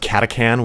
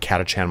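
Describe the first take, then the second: First: The middle consonant is a hard k sound. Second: The middle consonant is a ch sound. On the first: This is the pronunciation the speaker found is correct. The speaker calls it right. "as I found is pronounced Katakan" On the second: This is how the speaker always said it before. The speaker calls it wrong. "I've pronounced it Katachan my whole life"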